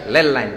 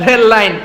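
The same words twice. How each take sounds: First: "লেল line" with L for R; R turned into L. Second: Said in the usual way. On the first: Shown as a demonstration. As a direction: say "লেল" with L at both ends. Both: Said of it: "রেল line না বলে কি বলে?".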